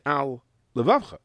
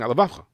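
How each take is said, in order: First: AL, short break, then LEVAVCHA; separated words. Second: "al levavcha" merged into one word with a single L; words run together. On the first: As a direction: keep both L's distinct in "al levavcha". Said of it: "split second to separate the words". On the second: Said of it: "you only said one lamed". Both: Shown as a demonstration.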